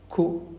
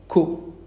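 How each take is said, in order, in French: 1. La voyelle est gardée courte. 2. La voyelle est gardée courte.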